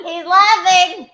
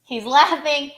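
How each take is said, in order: First: High, loud, stretched-out crow; triumphant shout. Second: Raised, louder delighted call; excited announcement. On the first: Repeats it in triumph, louder. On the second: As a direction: point out the laugh excitedly. Delighted the joke got a laugh. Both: Real, not acted.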